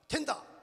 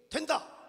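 Both takes have the same delivery.

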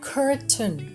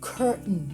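First: The t sound is fully released. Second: The t sound is held in the throat.

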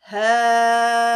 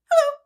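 First: It is said very slowly. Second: It is said very fast.

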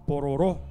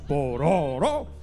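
First: The stress is on the last syllable. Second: The stress is on the middle syllable. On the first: The speaker calls it right. "Con acento en la última O" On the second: The speaker calls it wrong. "O si en el medio decía pororó"

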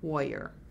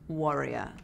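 First: It is said in an American accent. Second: It is said in a British accent.

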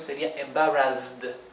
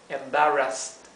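First: The middle consonant is a buzzing z. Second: The middle consonant is a soft s. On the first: "Si tuviéramos una sola S ... es z" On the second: "tenemos una doble S ... se pronuncia como la S suave"

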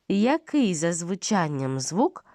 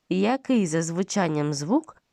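No difference in how they are said.

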